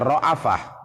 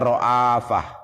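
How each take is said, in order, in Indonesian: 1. Vokal pendek dibunyikan setelah hamzah. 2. Vokal panjang dibunyikan setelah hamzah. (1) "tapi ada yang baca ra'afah" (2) "hamzahnya dipanjangkan"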